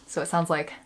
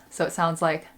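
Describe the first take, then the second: No difference in how they are said.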